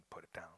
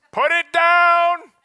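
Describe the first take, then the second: First: Quiet echo. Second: High, loud and slow command. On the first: Echo of inner voice. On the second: Inner voice ordering a snacker to stop, loud and slow. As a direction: order yourself to drop the cookie. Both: Acted.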